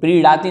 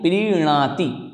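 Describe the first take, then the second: First: The middle consonant is a flapped 'd' sound. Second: The middle consonant is a nasal 'n' sound. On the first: The speaker calls it wrong. "प्रीड़ाति नहीं" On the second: The speaker calls it right. "इस प्रकार से अगर उच्चारण करते हैं तो निश्चित ही हमारा शुद्ध उच्चारण होगा"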